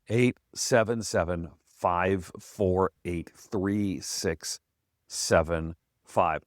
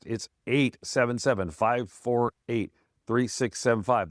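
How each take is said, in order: First: The number is said slowly. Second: The number is said fast.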